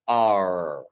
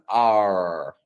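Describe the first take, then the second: The two takes are said the same way.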